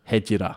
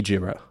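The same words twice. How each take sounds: First: The title in a put-on Japanese accent; affected Japanese accent. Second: Said in the usual way. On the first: Shown as a demonstration. Host trying to read out the song title, affected Japanese accent. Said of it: "You can't just put an accent on it". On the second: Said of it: "this is why I didn't wanna say it".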